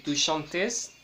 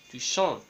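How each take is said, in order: First: Tu chantes with the final -tes sounded; wrong pronunciation. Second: Tu chantes with a silent ending; tu chantes ending on the nasal vowel, no T or S; correct pronunciation. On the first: Teacher demonstrating to students the mistake, tu chantes with the ending sounded. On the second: Teacher demonstrating to students the right way, tu chantes with a silent ending. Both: Shown as a demonstration. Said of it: "en lugar de decir".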